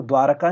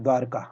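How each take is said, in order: First: द्वारका in three beats, "dwa-ra-ka"; wrong form. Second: द्वारका in two beats, "dwar-ka"; no vowel after the r in द्वारका; correct form. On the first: Teacher rejecting a mistake, द्वारका as "dwaraka". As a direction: add a vowel after the r in द्वारका. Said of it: "द्वारका नहीं होता". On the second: Teacher giving the correction, द्वारका as "dwarka". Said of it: "क्या होता है". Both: Shown as a demonstration.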